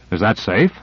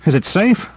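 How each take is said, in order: First: Said in the usual way. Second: High scoffing rising question; incredulous echo. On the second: Acted. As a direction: toss the question back amazed. Owens echoes incredulously.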